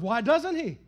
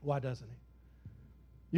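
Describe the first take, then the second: First: Said in the usual way. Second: Why doesn't he? dropped low, soft and very slow; soft, drawn-out Why doesn't he?, lower and quieter; quiet, slow question. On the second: Shown as a demonstration. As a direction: pull it back to a hush and let it hang. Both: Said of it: "Y'all tell me".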